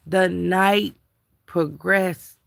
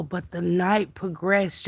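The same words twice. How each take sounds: First: "The night" then a pause before "progressed"; dramatic pauses. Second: Said in the usual way. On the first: Shown as a demonstration.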